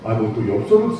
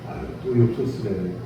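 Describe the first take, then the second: First: It is said in an annoyed, harsh tone. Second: It is said in a very soft, gentle tone.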